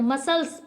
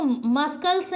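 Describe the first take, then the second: First: मसल्स with no K sound; silent C. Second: मस्कल्स with a K sound after S; C pronounced. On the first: Teacher giving the correct reading, मसल्स with silent C. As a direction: say मसल्स, only S in the middle. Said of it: "मसल्स पढ़ते हैं". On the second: Teacher showing learners the mistake, मस्कल्स with hard C. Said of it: "मस्कल्स नहीं पढ़ते हैं". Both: Shown as a demonstration.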